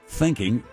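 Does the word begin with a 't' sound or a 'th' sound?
th. The word begins with a 'th' sound. "instead of thinking"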